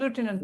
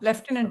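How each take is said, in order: First: The first syllable is 'loo', with no f sound. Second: The first syllable is 'lef', with an f sound. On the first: The speaker calls it right. "Pronunciation லூட்டினன்ட் தான்" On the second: The speaker calls it wrong. "லெப்டினன்ட் இல்ல"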